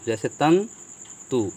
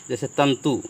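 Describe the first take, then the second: First: तंतु said slowly, with a clear न before each त; slow repeat. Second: Said in the usual way. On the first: Shown as a demonstration. Teacher repeating तंतु slowly for the students. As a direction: stretch out तंतु so the न sound is heard.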